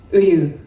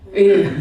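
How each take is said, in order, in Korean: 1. 첫 모음은 입술을 펴고, 소리가 흐릿해요. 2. 첫 모음은 입술을 펴고, 소리가 흐릿해요.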